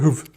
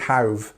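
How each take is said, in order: First: The first vowel is a short 'oo' sound. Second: The first vowel keeps its 'ow' sound. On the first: The speaker calls it wrong. "It doesn't go hoof. You don't do this" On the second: The speaker calls it right. "It's always have"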